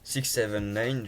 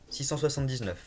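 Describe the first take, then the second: First: The number is said the English way. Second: The number is said the French way. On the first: "en anglais" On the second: "je vais le prononcer à la française"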